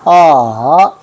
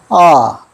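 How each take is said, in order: First: The pitch falls and then rises again. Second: The pitch falls sharply straight down. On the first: "내려갔다가 다시 올라가는" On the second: "바로 내려갑니다"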